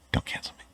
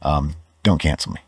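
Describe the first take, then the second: First: Unvoiced whispered repeat. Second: Said in the usual way. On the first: Real, not acted. Vlogger whispering his joking plea a second time. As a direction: breathe it as a hushed aside.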